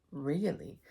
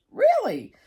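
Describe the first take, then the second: First: Said in the usual way. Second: Really? shot up high and loud in disbelief; squeaky incredulous Really?; surprised Really. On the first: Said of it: "And I said". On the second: Retold or imitated. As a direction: mimic the therapist's astonished Really?. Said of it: "And she goes".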